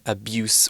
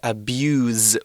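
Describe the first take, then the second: First: The final consonant is a hissing S sound. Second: The final consonant is a buzzing Z sound. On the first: It is used as a noun. "with an S sound" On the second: It is used as a verb. "with a Z sound"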